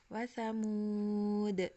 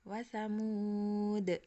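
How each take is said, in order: No difference in how they are said.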